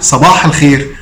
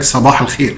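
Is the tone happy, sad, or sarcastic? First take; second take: happy; sarcastic. First: It is said cheerfully, with a laugh. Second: It is said in a mocking, sarcastic tone. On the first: The greeter is in a good mood. "وقال لك هو بيضحك" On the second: The greeter is mocking the listener. "قالها لك كده بتهكم"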